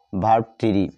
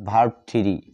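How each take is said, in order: Both takes have the same delivery.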